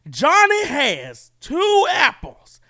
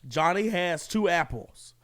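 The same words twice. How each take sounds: First: It is said loudly in a raised, yelling voice. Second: It is read in a calm, normal voice.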